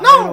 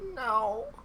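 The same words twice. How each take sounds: First: It is said in a Mickey Mouse voice. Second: It is said in a sick boy's voice.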